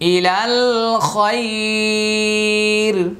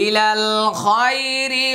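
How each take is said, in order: First: The phrase stops and the final vowel is lengthened. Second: The phrase runs straight into the next word. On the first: "এখানে আমি একটা ওয়াকফ করেছি" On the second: "ওয়াকফ করবো না, মিলিয়ে পড়বো"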